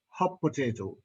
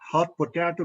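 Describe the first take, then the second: First: The t at the end of hot merges into p. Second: The t at the end of hot is fully released.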